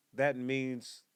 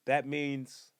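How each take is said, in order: Both takes have the same delivery.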